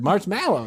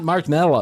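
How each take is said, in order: First: The second syllable has the vowel of 'mallow'. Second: The second syllable has the vowel of 'mellow'. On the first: The speaker calls it right. "That is the word marshmallow" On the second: The speaker calls it wrong. "not marshmallow"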